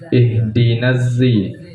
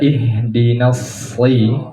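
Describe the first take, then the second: First: The word begins with a plain z sound. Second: The word begins with an emphatic s sound. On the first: "di kiroat lain ada dengan zai" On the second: "dengan sod"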